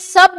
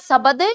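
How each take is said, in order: First: The b sound has no vowel after it. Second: An extra vowel follows the b sound. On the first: The speaker calls it right. "वह आपका स्वर रहित है, इसलिए शब्द बोला जाएगा" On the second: The speaker calls it wrong. "शब्द नहीं"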